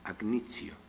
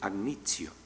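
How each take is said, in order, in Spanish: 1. La t se debilita y se convierte en un sonido fricativo. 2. La t se debilita y se convierte en un sonido fricativo.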